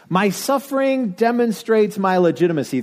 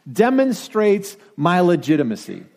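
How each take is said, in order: First: "suffering" lifted higher and leaned on; raised, insistent "suffering"; stress on suffering. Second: Said in the usual way. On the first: Shown as a demonstration. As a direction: repeat it, pressing "suffering".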